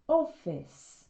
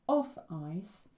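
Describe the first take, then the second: First: The ending is said as 'iss'. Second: The ending is said as 'ice'. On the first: "it often sounds like is" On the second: "if we say them as they are"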